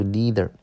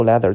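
First: "leather" pronounced lee-ther; LEATHER with long ee. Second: "leather" as leh-ther, short e. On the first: Teacher apologising and restating, "leather" as lee-ther. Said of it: "读leather". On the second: Teacher retracting a reading, "leather" with short e. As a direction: say "leather" to rhyme with feather. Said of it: "这个不读leather". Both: Shown as a demonstration.

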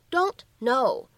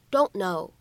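First: Said in the usual way. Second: "don't know" with the t left unreleased; incomplete plosion. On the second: Shown as a demonstration. Teacher showing learners "don't know" with no released t. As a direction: swallow the t of "don't", straight into "know". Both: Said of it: "可以有一个不完全爆破的处理".

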